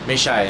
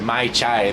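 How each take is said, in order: First: The first word has a 'may' vowel. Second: The first word has a 'my' vowel. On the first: This is how people in Bangkok say it. "They say May sometimes instead of Mai" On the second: This is the expected form. "instead of Mai Chai"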